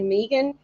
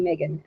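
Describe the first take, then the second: First: It is said with an Australian pronunciation. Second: It is said with an American pronunciation. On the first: This is how the speaker says it. "I say Megan" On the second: This is how others say it. "they say Megan"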